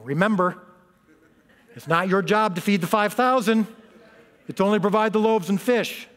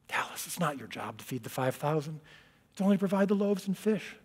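First: It is said in a firm, stern tone. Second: It is said in a tender, comforting tone.

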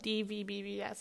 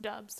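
First: The name is spelled out letter by letter. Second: The name is said as one short word. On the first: The speaker calls it wrong. "I've been spelling it out like it's like spelled" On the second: The speaker calls it right. "it's actually pronounced dubs"

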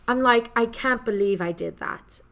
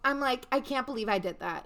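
First: It is said in a put-on British accent. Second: It is said in her ordinary American accent.

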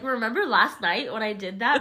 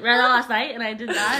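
First: The words are spoken clearly and distinctly. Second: The words are slurred and mumbled together.

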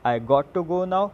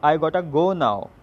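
First: The words 'got to' are said in full. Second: The words 'got to' are reduced to 'gotta'.

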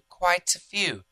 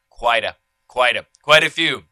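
First: It has a British accent without a flapped T. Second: It has an American accent with a flapped T. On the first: "in the UK, in London, they might say" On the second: "in America, we say quite a few"

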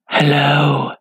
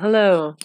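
First: It is said in a creepy stalker voice. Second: It is said in a normal voice.

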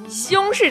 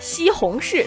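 First: The word is squeezed into two quick syllables. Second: The word is said with three full syllables.

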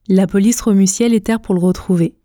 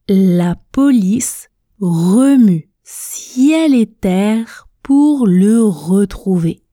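First: The sentence is spoken quickly. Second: The sentence is spoken very slowly. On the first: "à la vitesse express, à la vitesse rapide. Écoutez, je prononce" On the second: "Répétez avec moi à la vitesse tortue"

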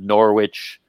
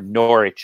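First: It is pronounced in a non-British, American way. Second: It is pronounced in a British English way.

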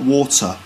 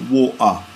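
First: The middle T is clearly pronounced. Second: The middle T is replaced by a glottal stop. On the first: "not water" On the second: "someone with a sort of strong London accent would say water"

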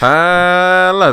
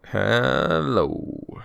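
First: It is said in a normal speaking voice. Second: It is said in a smooth, crooning voice. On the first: "you're not doing your smooth criminal trip report voice" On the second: "I do the hello in my smooth jazz voice"

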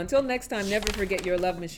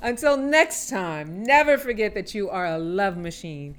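First: It is said at a fast pace. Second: It is said at a slow pace.

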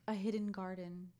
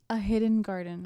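First: It is said quietly. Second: It is said loudly.

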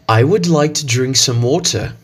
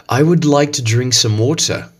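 First: It is spoken in a British English accent. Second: The same.

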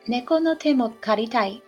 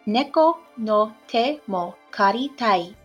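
First: It is said at a normal speed. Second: It is said a little more slowly.

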